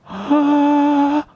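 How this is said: The vowel sounds breathy and veiled, folds barely touching. "one very veiled sound"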